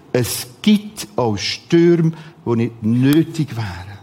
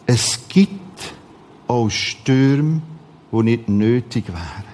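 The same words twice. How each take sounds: The two takes are said the same way.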